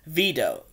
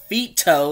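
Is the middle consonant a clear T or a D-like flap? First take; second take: D-like flap; clear T. First: The middle consonant is a soft D-like sound. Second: The middle consonant is a crisp T sound. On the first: This is how the name was actually used. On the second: This is the Italian form of the name. "not Vito, like V-I-T-O, like Italian"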